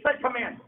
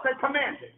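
First: Said in the usual way. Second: Loud group repeat; congregation repeating loudly. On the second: Shown as a demonstration. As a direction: say it loud, call and response. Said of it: "Say it loud".

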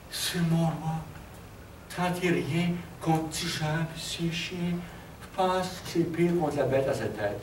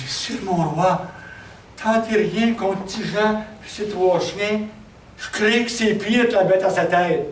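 First: Dying man. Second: Loud, higher-pitched, drawn-out warning to the king; urgent warning. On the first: Dying survivor warns the king with his last words, weak voice. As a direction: gasp out a last warning, much softer. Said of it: "il était aux trois quarts mourant". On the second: Messenger warns the king against Tijan and his dogs, urgent warning. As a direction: cry out a warning, stretching the words. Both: Acted.

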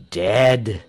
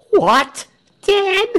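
First: Low, falling, final "Dead"; solemn confirmation. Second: Very high, loud, rising "Dead?"; shocked disbelief. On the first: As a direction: confirm it gravely as settled fact. Pastor confirms the death. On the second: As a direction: exclaim it as a stunned question. Crowd shocked by the news. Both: A narrator's reading.

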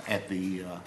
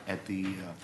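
The two takes are said the same way.

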